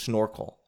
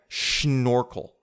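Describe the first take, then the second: First: It is said with an ordinary English pronunciation. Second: It is said with a German-style 'schn' sound.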